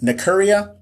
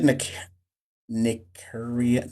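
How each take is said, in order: First: "Nikuria" said quickly as one word, high; questioning. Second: "Nikuria" slow and soft, syllable by syllable; sounding out. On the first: Asking a viewer about their name, questioning. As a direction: try "Nikuria" higher, as a check. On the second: Reading a viewer's unfamiliar name, sounding it out. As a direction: break "Nikuria" into careful, quiet pieces. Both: Real, not acted.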